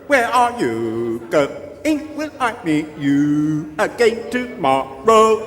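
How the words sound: It is said in a flat robotic computer voice.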